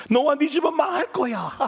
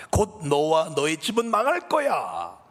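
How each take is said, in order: First: Much higher and louder, a screeching demon; shrieking evil voice. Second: Slow, sinister whisper-like threat; a dark voice hissing doom; menacing evil voice. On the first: Demon voice shrieking doom at the pastor's wife. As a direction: let the dark voice rise into a shriek. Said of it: "이런 소리가 들리더래요". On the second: Evil voice threatening the pastor's wife with ruin. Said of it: "이런 말이 들리더래요". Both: Acted.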